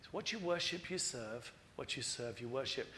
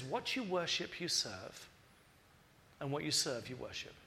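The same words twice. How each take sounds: First: Softer and lower, "you serve" almost hushed; quiet repeat. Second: Each YOU pointed, falling away at the ends; stressed saying. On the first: Preacher repeating Jesus' words softly to the congregation. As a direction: say "what you worship, you serve" again quietly, low and soft. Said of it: "But Jesus knows that". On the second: Preacher quoting Jesus, stressing "you" and falling. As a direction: lean on "you" in "What you worship, you serve", dropping low on each close. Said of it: "Jesus knows that". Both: Shown as a demonstration.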